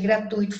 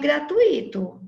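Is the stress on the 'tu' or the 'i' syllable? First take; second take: tu; i. First: The stress falls on the 'tu' syllable. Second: The stress falls on the 'i' syllable. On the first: The speaker calls it right. "é gratuito, fortuito, circuito" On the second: The speaker calls it wrong. "Essa não existe"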